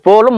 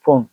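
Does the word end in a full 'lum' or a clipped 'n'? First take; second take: full lum; clipped n. First: The word ends with a full 'lum' syllable. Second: The word ends clipped on a short 'n'. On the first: This is the everyday form of the word. "நம்ம நார்மலா சொல்றோம்" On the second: This form is used in poetry for its sound. "செய்யுள்ல ஓசை நயத்துக்காக இதை நம்ம எப்படி use பண்ணுவோம்னா போன்னு சொல்லுவோம்"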